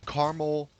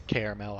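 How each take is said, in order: First: Caramel said as KAR-ml, two syllables; caramel clipped to car-ml. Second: Caramel said as KEHR-a-mel, three syllables. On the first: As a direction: say caramel as car-ml, swallowing the middle vowel. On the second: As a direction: say Caramel as care-a-mel with a full middle vowel. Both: Shown as a demonstration. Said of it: "however you wanna say".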